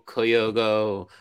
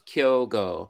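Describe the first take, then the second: First: The name is said in three syllables. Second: The name is said in two syllables. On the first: The speaker calls it wrong. "I understand how it turns from two syllables into three" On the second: The speaker calls it right. "it's just two syllables"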